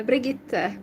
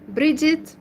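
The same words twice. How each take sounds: First: Brigitte said the Russian-style way, bree-ZHEET, stress on the end; name said the other way. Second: Bridget said the English way, BRID-jit, stress on the first syllable, rising at the end; real name, English way. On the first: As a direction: say Brigitte with a soft Continental G, not the English Bridget. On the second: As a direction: say Bridget as in English, hard J in the middle. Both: Shown as a demonstration. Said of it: "I say it in a different accent than my real name".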